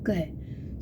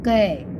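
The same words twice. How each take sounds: First: The consonant is said bare, with no vowel. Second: The consonant is followed by a short a vowel. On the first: The halant removes the inherent vowel. "हलंत लगा देंगे तो" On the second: The consonant carries its inherent vowel. "जब हम उसको बोलेंगे तो अ की आवाज़ आएगी पीछे"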